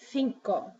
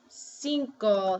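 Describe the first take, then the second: First: The first c is sounded as th. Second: The first c is sounded as s. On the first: "they say cinco" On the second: "Instead of saying cinco"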